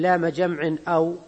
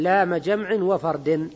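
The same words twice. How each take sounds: First: "لام جمع أو" with a clear break before "أو"; glottal stop pronounced. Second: "جمع وفرد" run together as jamʕinaw fardin; hamza dropped. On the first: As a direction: say "جمع أو" as jamʕin. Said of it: "يعني ما تقول". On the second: Teacher correcting the verse reading, "جمع وفرد" linked without hamza. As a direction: link the n of "جمع" straight into the next word, no glottal stop. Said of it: "بإسقاط همزة الوصل". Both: Shown as a demonstration.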